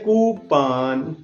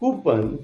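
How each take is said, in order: First: The second syllable has a broad 'ah' vowel. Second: The second syllable has a short, weak vowel. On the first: "American इसको कहते हैं कूपान" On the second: "क्योंकि हम Britishers को follow करते हैं ज्यादा"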